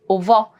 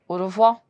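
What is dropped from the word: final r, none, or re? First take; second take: re; final r. First: The 're' syllable is left out. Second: The final r sound is left off. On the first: It is said this way when speaking fast. "Sometimes people also drop R E" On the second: Many speakers in francophone countries say it this way. "I can also drop my last R"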